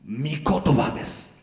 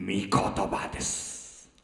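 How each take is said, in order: First: Said in the usual way. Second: Hushed, slow first utterance of 御言葉です; soft breathy murmur. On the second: Real, not acted. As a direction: drop to a near whisper, slow. Pastor repeats key phrase.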